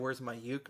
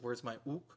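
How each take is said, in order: First: The last word starts with a 'you' sound. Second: The last word starts with an 'oo' sound. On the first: This is how people usually say it. "So they'll say" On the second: People don't usually say it this way. "People don't usually say ook"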